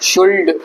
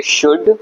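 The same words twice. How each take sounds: First: शुल्ड with an audible l before d; SHOULD misread as शुल्ड; sounded silent L. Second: शुड with no l before the d; SHOULD pronounced शुड; silent L. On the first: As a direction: pronounce the l in शुल्ड. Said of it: "सारे words में एल silent होता है". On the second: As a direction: say शुड, skipping the l. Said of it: "इसको बोलेंगे शुड". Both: Shown as a demonstration.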